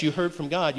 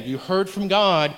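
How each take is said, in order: First: Said in the usual way. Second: YOU HEARD FROM GOD said slowly and firmly; slow down and press each word of YOU HEARD FROM GOD; YOU HEARD FROM GOD, measured and insistent; emphatic repeat. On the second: Real, not acted. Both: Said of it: "Let me say it again".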